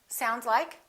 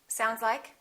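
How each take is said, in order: The two takes are said the same way.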